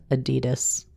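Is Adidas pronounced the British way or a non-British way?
non-British. It is pronounced a non-British way. The speaker calls it wrong. "it sounds better than Adidas"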